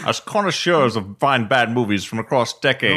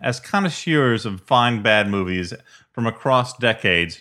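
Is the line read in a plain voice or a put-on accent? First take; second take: put-on accent; plain. First: It is read in an imitated Scottish-style accent. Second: It is read in the speaker's normal accent.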